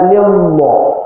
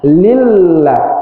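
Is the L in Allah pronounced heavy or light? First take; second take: heavy; light. First: The L in Allah is thick and heavy. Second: The L in Allah is thin and light. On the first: The speaker calls it wrong. "nggak boleh baca" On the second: The speaker calls it right.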